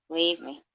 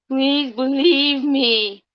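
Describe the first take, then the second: First: Said in the usual way. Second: "believe" drawn out high and slow, pleading. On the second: Shown as a demonstration. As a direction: beg in a much higher, slow, stretched voice.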